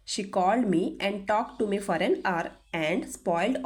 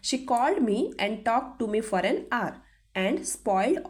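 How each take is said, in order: Both takes have the same delivery.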